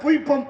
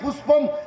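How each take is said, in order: First: The middle consonant is a 'y' sound. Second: The middle consonant is a clear 'sh' sound. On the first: The speaker calls it wrong. "அவன் புய்பம் அப்படின்னு இருக்கிறான்" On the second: The speaker calls it right. "புஷ்பம் அப்படின்னா"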